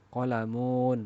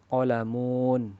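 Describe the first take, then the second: No difference in how they are said.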